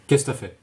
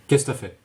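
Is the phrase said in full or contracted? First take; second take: contracted; contracted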